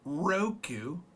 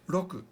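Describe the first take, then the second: First: The R is a smooth English-style R. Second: The R is a quick tap, like D. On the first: The speaker calls it wrong. "my R is not Roku" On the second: The speaker calls it right. "It's more like a R D sound"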